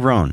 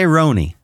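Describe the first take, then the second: First: The name is one syllable, rhyming with 'loan'. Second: The name ends with an added 'ee' sound. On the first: The speaker calls it right. "I say Roan" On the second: The speaker calls it wrong. "I don't say Roni"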